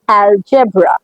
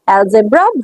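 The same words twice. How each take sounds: First: The g is said like a j sound. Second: The g is said like a z sound. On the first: The speaker calls it right. "এটা অ্যালজেব্রা" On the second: The speaker calls it wrong. "ভুল"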